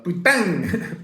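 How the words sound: It is said with a Marseille accent.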